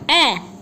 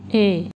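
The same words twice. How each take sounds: First: The vowel is short, as in cat. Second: The vowel is long, as in cake. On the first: "the short vowel sound" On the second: "the long vowel sounds"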